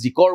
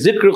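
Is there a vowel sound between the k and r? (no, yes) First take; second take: yes; no. First: A vowel is sounded between the k and r. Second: The k and r join with no vowel between. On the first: The speaker calls it wrong. "যদি এডাল নিদিয়া তেনেহলে জিকৰ বুলি ক'ব" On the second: The speaker calls it right. "কিন্তু জিক্ৰ"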